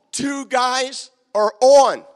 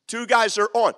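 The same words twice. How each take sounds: First: Drawn out, louder, each word leaned on; slow emphatic line. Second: Said in the usual way. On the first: Shown as a demonstration. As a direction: spell it out slowly and firmly for the crowd. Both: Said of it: "illustrating the singing group".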